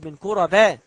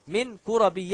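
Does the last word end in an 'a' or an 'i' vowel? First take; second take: a vowel; i vowel. First: The last word ends with an 'a' vowel. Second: The last word ends with an 'i' vowel. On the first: The speaker calls it wrong. "ولا تقل من كربا" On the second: The speaker calls it right. "وكربي اسم مجرور بمن وعلامة جره الكسرة"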